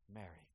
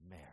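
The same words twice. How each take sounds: First: "Mary" said very soft, lower and falling, full of care; tender, like a shepherd. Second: Said in the usual way. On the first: Shown as a demonstration. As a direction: call her name gently, as a shepherd to his sheep. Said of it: "of a shepherd caring for his sheep". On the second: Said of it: "we don't have the inflection".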